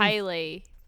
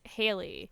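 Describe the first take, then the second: First: The name is said in an Australian accent. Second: The name is said in the speaker's normal accent. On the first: "That's Haley in Australian accent" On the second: "when I say my name in like my voice"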